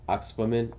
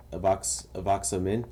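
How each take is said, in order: First: Oxpamin opening straight on OX, with a P; alternative pronunciation. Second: Avoxamin said with a V after the first A; tentative pronunciation. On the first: Gamer offers another way to pronounce it, Oxpamin as OX-puh-min. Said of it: "I think it's Oxpamin". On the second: Gamer unsure how you pronounce it, trying out Avoxamin. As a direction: sound out Avoxamin, starting "a-VOX". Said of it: "I don't know if that's how you pronounce it". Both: Shown as a demonstration.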